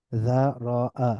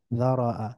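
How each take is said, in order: First: যারাআ slowly as dha, ro, 'a; syllable by syllable. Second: যারাআ as one joined word, dha-ro-'a; blended together. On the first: Teacher breaking down the word, যারাআ syllable by syllable. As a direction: split যারাআ into three drawn-out syllables. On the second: Teacher reading joined-up, যারাআ blended into one word. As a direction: run যারাআ together with a fall. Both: Shown as a demonstration. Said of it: "একটু মিলিয়ে মিলিয়ে পড়ব".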